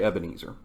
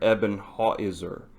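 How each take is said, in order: First: The word ends with an 'ezer' sound. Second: The word ends with a 'hauser' sound. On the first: This is the usual English form. "But we say Ebenezer" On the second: This follows the original Hebrew form.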